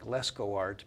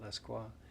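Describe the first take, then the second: First: The name ends with an 'art' sound. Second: The name ends with a 'wah' sound. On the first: This is how the spelling suggests it. "it looks like Lescoart" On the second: This is how the name's owner says it. "pronounces it Lesquois"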